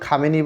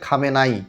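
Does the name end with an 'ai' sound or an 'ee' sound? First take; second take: ee; ai. First: The name ends with an 'ee' sound. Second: The name ends with an 'ai' sound. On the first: This is how some people say it in Bengali. "এটাকে আমরা কেউ খামেনি বলি" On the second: This is the original Persian pronunciation. "আসল উচ্চারণ ফার্সিতে সেটা হচ্ছে"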